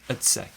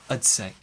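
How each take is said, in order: First: 'I'd' is reduced to a weak 'ud' sound. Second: 'I'd' is reduced to a weak 'ud' sound.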